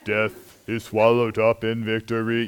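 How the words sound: It is said in a flat monotone.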